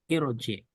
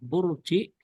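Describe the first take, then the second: First: The word begins with an i vowel. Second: The word begins with a u vowel. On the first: The speaker calls it right. "alifnya kasroh" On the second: The speaker calls it wrong. "Bukan urji"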